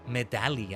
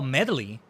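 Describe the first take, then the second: First: The name is said as Medali, not medley. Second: The name is said like the word medley. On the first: "I've been saying" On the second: "Are you supposed to say it like that?"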